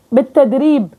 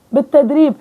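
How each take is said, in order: Both takes have the same delivery.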